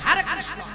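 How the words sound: It is said with a mocking American accent.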